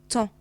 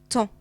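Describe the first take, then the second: No difference in how they are said.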